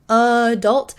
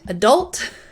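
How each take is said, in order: First: The stress is on the first syllable. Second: The stress is on the last syllable. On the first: "I say adult, adult with the same vowel" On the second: "with that kind of um, emphasis at the end"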